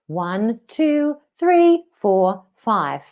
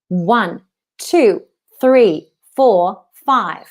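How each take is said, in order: First: The voice is relaxed with little ringing resonance. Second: The voice is resonant, ringing and louder. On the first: The speaker calls it wrong. "Can you see before? ... It's relaxed" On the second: The speaker calls it right. "with more resonance"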